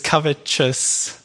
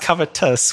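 First: The t is said like a ch sound. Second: The t is said as a soft t. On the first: "covetous with more of a CH sound" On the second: "covetous with a soft T"

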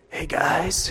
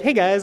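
First: The voice is raspy and rough. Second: The voice is plain and normal.

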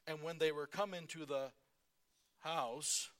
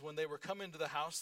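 First: It is read slowly and deliberately. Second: It is read at a normal pace.

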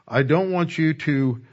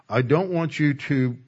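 Both takes have the same delivery.

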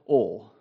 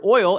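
First: The word is said in a Southern accent. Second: The word is said in a standard accent.

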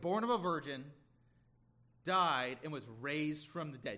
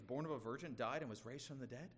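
First: It is said in a sneering, scornful tone. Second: It is said in a plain, neutral tone. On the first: The speaker is heaping scorn on the belief. "He's just being sneering with his tone" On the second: The speaker is simply asking a question. "let me put it in another tone"

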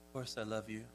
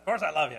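First: It is said in a warm, tender tone. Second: It is said in a dismissive, impatient tone.

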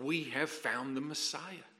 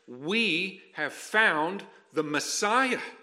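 First: It is said in a flat, blasé way. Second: It is said with fervent, awed excitement.

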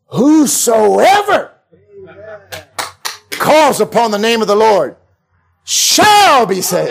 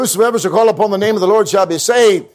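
First: It is said with strong, believing conviction. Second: It is said flatly, without conviction.

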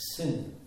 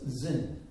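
First: The word begins with an s sound. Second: The word begins with a z sound. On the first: "the wilderness of Sin, with a capital S" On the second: "better to write it or pronounce it as Zin, Z-I-N"

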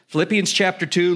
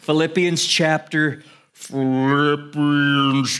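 First: The phrase is spoken at a faster pace. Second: The phrase is spoken at a slow pace.

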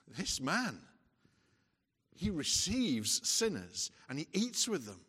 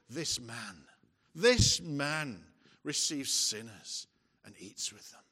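First: It is said in an amazed, hopeful tone. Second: It is said in an accusing, scornful tone.

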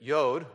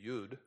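First: The vowel sounds like 'oh'. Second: The vowel sounds like 'oo'. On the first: "But Yod, Y-O-D" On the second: "Some pronounce it Y-U-D"

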